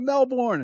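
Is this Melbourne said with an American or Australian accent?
American. It is said with an American accent. "American comes, I'm going to Melbourne"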